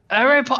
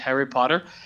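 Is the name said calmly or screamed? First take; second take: screamed; calmly. First: The name is screamed loudly. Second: The name is said calmly, without yelling. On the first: "I think that's Hagrid screaming" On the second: "He says"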